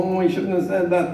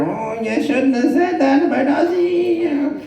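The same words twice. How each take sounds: First: Said in the usual way. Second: High, slow, drawn-out needling voice; nagging jockey in the ear. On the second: Retold or imitated. Jockey in your ear after the row, high drawn-out reproach. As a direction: needle them like a guilty conscience, high and slow. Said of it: "The jockey is whispering in your ear".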